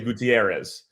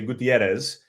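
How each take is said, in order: First: The name is said with English pronunciation. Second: The name is said with Spanish pronunciation. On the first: The speaker does not need to fall back on this pronunciation. The speaker calls it wrong. "I don't have to say Gutierrez" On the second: The speaker can manage the original pronunciation. The speaker calls it right. "I'm serviceable enough to the point where I can say Gutierrez"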